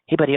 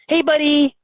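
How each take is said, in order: First: It sounds gentle and soothing. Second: It sounds warm and playful. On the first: The listener is being comforted. "consoling a child" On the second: The listener is being fondly greeted. "Petting a dog"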